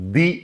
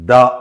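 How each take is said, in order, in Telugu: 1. ఈ పదం పొడవైన 'ee' అచ్చుతో ముగుస్తుంది. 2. ఈ పదం చిన్న 'uh' అచ్చుతో ముగుస్తుంది. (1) "వొవెల్ సౌండ్స్ వచ్చే పదాలన్నిటి ముందు కూడా మనం ఏం చేయాలి? ది అని పలకాలి" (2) "కాన్సనెంట్ సౌండ్స్ వచ్చినప్పుడు దాని ముందు ఏం చేయాలి? ద అని పలకాలి"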